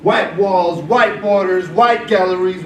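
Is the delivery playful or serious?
serious. It is read in a serious, pointed tone. It is aimed at an adult audience. "to you guys, I read this like this"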